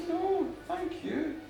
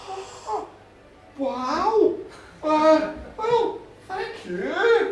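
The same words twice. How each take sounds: First: Slow, softer, measured thank-you; gracious returned thanks. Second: Loud, higher, halting thanks; flustered awe. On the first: Goddess thanking the farmer back, gracious and slow. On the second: Farmer realising a goddess shares his bed, flustered awe. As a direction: stumble from awe into drawn-out thanks. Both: Acted.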